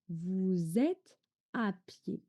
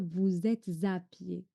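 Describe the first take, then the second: First: No z sound links êtes to à. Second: A z sound links êtes to à. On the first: The speaker calls it right. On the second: The speaker calls it wrong.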